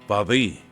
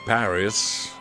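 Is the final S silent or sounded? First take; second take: silent; sounded. First: The final S is silent. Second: The final S is pronounced.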